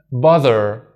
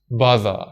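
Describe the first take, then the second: First: "bother" with the R sounded at the end; American bother. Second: "bother" with no R at the end, British style. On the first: Teacher demonstrating the American "bother". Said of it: "In American". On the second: Teacher demonstrating the British "bother". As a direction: drop the R in "bother" like a British speaker. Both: Shown as a demonstration.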